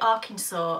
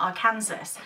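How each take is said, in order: First: The final S is silent. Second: The final S is sounded, like Kansas. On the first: This is how the locals say the name. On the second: This is how the spelling suggests it.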